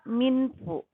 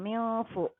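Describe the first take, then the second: First: The n is pronounced clearly and fully. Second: The n is blurred into a nasal sound. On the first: The speaker calls it wrong. "Tidak boleh dibaca minfu" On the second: The speaker calls it right. "Maka disamarkan bacaannya"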